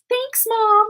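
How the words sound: It is said in a warm, loving tone.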